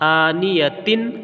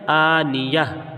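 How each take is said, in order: First: The word ends with a t sound and nasal vowel. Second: The word ends on a stopped h sound. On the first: The reading continues without stopping. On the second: The reading stops on this word.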